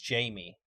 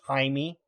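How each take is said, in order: First: The name has a plain English pronunciation. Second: The name has a Spanish-style pronunciation.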